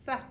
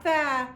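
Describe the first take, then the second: First: Tha cut short, brief vowel. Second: Tha drawn out long and loud; wrong long vowel. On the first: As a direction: say Tha quickly with no held vowel. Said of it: "short vowels". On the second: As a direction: stretch the vowel in tha as the mistake. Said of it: "Not tha". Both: Shown as a demonstration.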